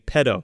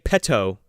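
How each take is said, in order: First: The middle consonant is a soft D sound. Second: The middle consonant is a crisp T sound. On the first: "you're saying with two D's" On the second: "you're not saying it with two T's"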